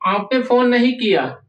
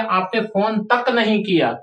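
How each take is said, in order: First: Said in the usual way. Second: तक pressed firmly; teacher landing तक with weight; stress on तक. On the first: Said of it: "इतना जोर नहीं पड़ेगा". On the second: Shown as a demonstration. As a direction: hit तक to make it sting. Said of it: "लेकिन हमने बोल दिया".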